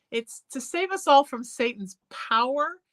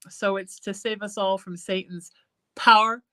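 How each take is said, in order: First: Said in the usual way. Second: "power" squeezed into one syllable, like "pow'r". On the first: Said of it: "trying to make power one syllable". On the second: Shown as a demonstration. Singer showing the hymn's one-syllable "power". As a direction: sing "power" as a single syllable, loud. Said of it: "make power one syllable".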